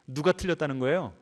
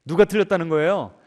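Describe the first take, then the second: First: Said in the usual way. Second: Loud, punched "누가 틀렸다는 거예요?"; emphatic repeated question. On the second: Real, not acted. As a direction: hit "누가" hard and loud, pressing the question. Same question repeated with force.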